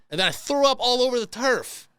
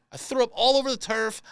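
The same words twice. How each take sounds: First: Raised, punchy; emphatic retelling. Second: All over the turf pushed higher; stress on all. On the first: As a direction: lean hard on threw up all over. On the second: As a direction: hit the word all. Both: Shown as a demonstration.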